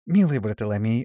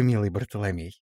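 First: «Милый Бартоломей» called with a lift; commanding sweetness. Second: «милый» sweetly falling; «милый Бартоломей» cooed with a falling end; sweet chirp. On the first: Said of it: "повернулась к замершему". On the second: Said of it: "прощебетала". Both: Acted.

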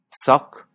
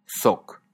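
First: Soc with an open o, said louder and higher. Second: Soc with a close rounded o; closed o. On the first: Teacher contrasting the two Catalan o vowels, open. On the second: Teacher contrasting the two Catalan o vowels, closed. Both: Shown as a demonstration. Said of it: "tiene dos os".

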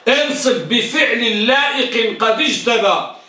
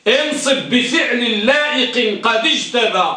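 First: Slow repeat leaning on انصب; slow repeated recital; verse repeated. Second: Slow recital of the rule verse, stressing انصب; slow teaching verse; recited verse. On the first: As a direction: say the line again, slower. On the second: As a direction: chant the mnemonic line slowly. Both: Shown as a demonstration. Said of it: "احفظوا هذا البيت".

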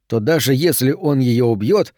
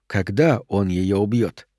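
First: Said in the usual way. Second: КОГДА weighted, slow and lower, falling to the end; slow, sinking certainty on КОГДА; stress on КОГДА. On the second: A narrator's reading. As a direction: correct it grimly with a deliberate КОГДА. Corrects "если" to "когда.

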